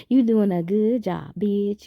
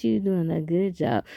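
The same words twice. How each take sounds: First: Affectionate praise. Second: Softer praise. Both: Shown as a demonstration. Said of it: "you know when you like".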